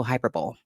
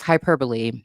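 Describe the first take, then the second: First: Hyperbole said "HY-per-bowl"; three-syllable hyperbole, no final "ee"; alternative pronunciation. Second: Hyperbole said "hy-PER-buh-lee"; four-syllable hyperbole, stress on PER; common pronunciation. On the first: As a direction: pronounce hyperbole to end like "bowl". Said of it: "It's just a pronunciation difference". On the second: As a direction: pronounce hyperbole with a final "lee". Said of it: "commonly, uh, referred to as". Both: Shown as a demonstration.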